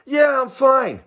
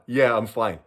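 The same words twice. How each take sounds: First: High, chipper yeah I'm fine; breezy lie. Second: Said in the usual way. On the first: Retold or imitated. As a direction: cheerfully pretend all is well. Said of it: "What do I tell him?". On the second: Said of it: "What a frickin' moron".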